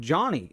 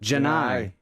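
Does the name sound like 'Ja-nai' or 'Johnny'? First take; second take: Johnny; Ja-nai. First: The name ends in a short 'nee' sound. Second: The name ends in a long 'nigh' sound. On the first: This is how it looks from the spelling. "I would pronounce that" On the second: This is how people who know the player say it. "How do you pronounce it?"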